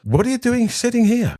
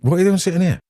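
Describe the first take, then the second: First: High, put-on voice of an indignant mother; mum's indignant question. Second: A mildly surprised, raised question; half-surprised, asking why he's sat by the door; wife's puzzled question. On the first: Mother to daughter, indignant at the poor table, high mock voice. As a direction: demand it like a mother affronted on her daughter's behalf. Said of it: "He walked over and says". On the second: Retold or imitated. Wife arriving, surprised to find him by the door, mildly puzzled. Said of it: "And she turns up and says".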